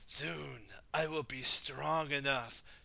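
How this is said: It is said in a put-on scary voice.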